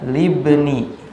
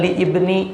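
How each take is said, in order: First: The hamzah vowel is dropped and the words run together. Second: The hamzah vowel is pronounced as a separate i. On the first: The speaker calls it right. "sehingga bacanya libni" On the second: The speaker calls it wrong. "Kenapa bukan li ibni?"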